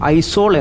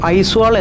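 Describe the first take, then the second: First: The middle is said 'zo', with no w sound. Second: The middle is said 'zwa', with a w sound. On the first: The letters aw are read as one single letter. The speaker calls it right. "മിസോകൾ ഇത് ഉച്ചരിക്കുന്നത് ഐസോൾ എന്നാണ്" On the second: It is read letter by letter from the spelling. The speaker calls it wrong. "ഐസ്വാൾ എന്നാണ് ഞാൻ പറയുന്നത്"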